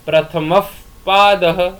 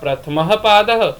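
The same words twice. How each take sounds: First: The h before p is a half visarga. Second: The h before p is a full visarga. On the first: "जब अर्ध विसर्गे होंगी तो उसका उच्चारण होगा" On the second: "जब संपूर्ण विसर्गे है तो उच्चारण होगा"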